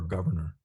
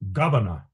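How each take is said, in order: First: It is said in a plain everyday accent. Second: It is said in a refined upper-class accent. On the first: This is the ordinary way to say it. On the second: This is how the speaker being described said it.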